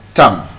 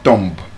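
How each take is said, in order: First: The b is silent at the end. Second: The b is sounded at the end. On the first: The speaker calls it right. "The B is silent" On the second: The speaker calls it wrong. "not thumb"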